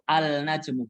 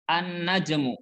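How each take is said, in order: First: The L is pronounced clearly before the consonant. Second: The L merges into the following consonant. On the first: The speaker calls it wrong. "ini cara baca yang salah" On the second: The speaker calls it right. "langsung masuk ke huruf nun"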